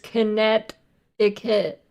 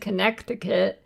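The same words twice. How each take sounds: First: The middle C sound is left out. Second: The middle C sound is clearly pronounced. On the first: The speaker calls it right. "you're not supposed to say the second C in Connecticut. It's Connecticut" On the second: The speaker calls it wrong. "Nobody says Connecticut"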